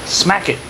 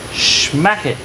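First: Said in the usual way. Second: Schmack it with a sh sound at the start, "shmack"; playful schmack. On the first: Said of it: "Schmack it". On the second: Shown as a demonstration. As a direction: turn the s of smack into sh, Schmack it, playfully.

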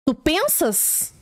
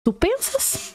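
First: Mock drawl. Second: Mock squeal. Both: Mocking quote of the mother.

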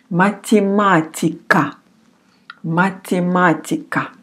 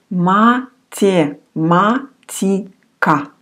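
First: Said in the usual way. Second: Математика very slowly, every syllable apart; syllable-by-syllable pronunciation. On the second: Shown as a demonstration. Teacher gives the Russian word математика, slow separate syllables. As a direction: break математика into ma-tye-ma-ti-ka, slowly. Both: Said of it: "We say".

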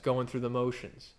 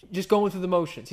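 First: Said in the usual way. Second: Half-sung snatch of the song; sung, sung song line. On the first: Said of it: "as the proverbial song goes". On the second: Shown as a demonstration. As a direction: croon the title like the song. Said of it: "You guys know that song?".

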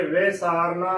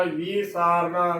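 First: ਵੇ ਸਾਰਨਾ opening on "ve"; correct short-vowel reading. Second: ਵੀ ਸਾਰਨਾ opening on "vee"; wrong long-i reading. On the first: Teacher giving the correct reading, ਵੇ ਸਾਰਨਾ opening on "ve". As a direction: begin ਵੇ ਸਾਰਨਾ with an e-like sihari, never "vee". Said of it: "ਉਚਾਰਨ ਕਰਨਾ". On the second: Teacher showing the wrong reading, ਵੀ ਸਾਰਨਾ with long "vee". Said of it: "ਗਲਤ ਉਚਾਰਨ ਹੈ". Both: Shown as a demonstration.

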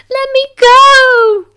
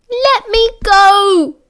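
First: Very high, loud, slow scream; child screaming. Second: High, loud, slow desperate cry; frightened child pleading. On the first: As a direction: scream it, beyond control. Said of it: "he screamed". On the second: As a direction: beg to be let go. Boy carried off, struggling. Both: A narrator's reading.

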